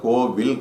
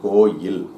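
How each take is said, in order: First: The middle consonant is a v sound. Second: The middle consonant is a y sound. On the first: The speaker calls it wrong. "கோவில் கிடையாது" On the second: The speaker calls it right. "அது வந்து கோயில்"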